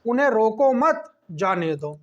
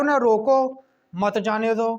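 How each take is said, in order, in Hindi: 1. 'mat' के ठीक बाद एक विराम है। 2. 'roko' के ठीक बाद एक विराम है।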